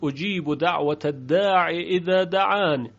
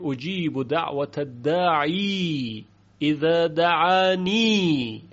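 First: The final word ends without a long 'ee' vowel. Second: The final word ends with a long 'ee' vowel. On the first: This follows the written text without the letter ya. "یعنی بدون یا خوندن" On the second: This pronounces the extra letter ya in continuous reading. "اینجا چون یا زائده هست پس باید خونده بشه"

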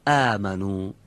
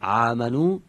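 First: It starts with a light glottal stop. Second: It starts with a throaty pharyngeal ain sound. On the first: The speaker calls it right. "بعد دیگیم چی؟" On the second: The speaker calls it wrong. "اگه بگیم آمنو، این عینه"

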